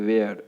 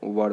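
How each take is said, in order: First: It is said with two syllables, like 'way-er'. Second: It is said as one short syllable, like 'wur'. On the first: The speaker calls it wrong. "बोलते थे वेयर, जो कि गलत तरीका था" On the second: The speaker calls it right. "वर बोलना है उसको"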